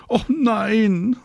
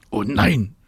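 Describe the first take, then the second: First: Very high, drawn-out protest; calling out. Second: Mildly groaned objection; groaning protest. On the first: Marie protests to Mama on the balcony, calling out. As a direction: wail back in a child's objection. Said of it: "ruft Marie". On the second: David objects to playing family, groaning. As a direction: groan at the unwelcome idea. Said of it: "stöhnt David". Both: A narrator's reading.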